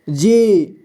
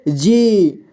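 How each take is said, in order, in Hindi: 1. अंतिम स्वर लंबा खींचा जाता है। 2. अंतिम स्वर लंबा खींचा जाता है।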